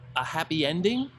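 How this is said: It sounds questioning, rising at the end.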